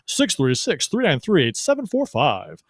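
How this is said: It is said in a put-on announcer voice.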